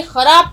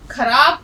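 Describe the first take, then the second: First: خراب with a throaty خ sound; خراب said with the rasping x; correct pronunciation. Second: خراب said as کھراب with an aspirated k; خراب with a hard kh, the way to avoid; wrong pronunciation demo. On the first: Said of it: "خراب کا تلفظ". (خراب، خ کی صحیح آواز کے ساتھ) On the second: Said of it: "کبھی مت پڑھیے گا". (خراب کو کھ کی آواز سے، غلط طریقے سے) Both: Shown as a demonstration.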